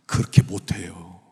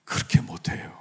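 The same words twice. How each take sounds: First: Said in the usual way. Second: Whispered, soft and grave; hushed repeat. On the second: Real, not acted. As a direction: drop to a breathy whisper. Repeats the point in a hush.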